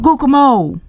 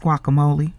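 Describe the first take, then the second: First: The word is pronounced in a mangled, mocking way. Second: The word is pronounced in the standard way. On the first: The speaker calls it wrong. "he didn't say it right either" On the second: The speaker calls it right. "When it's guacamole"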